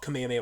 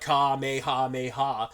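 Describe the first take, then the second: First: The word is said quickly as one unit. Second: The word is drawn out slowly. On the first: "when I'm just trying to say it fast as one word" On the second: "if you draw it out I say I feel like I say it better"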